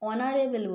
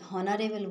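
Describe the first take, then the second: First: The word begins with a vowel sound. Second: The word begins with an h sound. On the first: The speaker calls it right. "অনারেবল বলি" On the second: The speaker calls it wrong. "হনারেবল বলি না"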